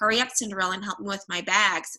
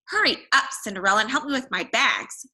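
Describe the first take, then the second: First: It is read in a plain reading voice. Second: It is read in a changed character voice.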